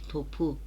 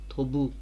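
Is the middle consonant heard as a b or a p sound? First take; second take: p; b. First: The middle consonant is a voiceless p sound. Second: The middle consonant is a voiced b sound. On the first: The speaker calls it right. "Değişmedi" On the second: The speaker calls it wrong. "Hayır olmadı"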